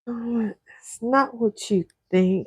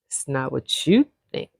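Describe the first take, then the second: First: It sounds nervous and uneasy. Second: It sounds flirty and teasing.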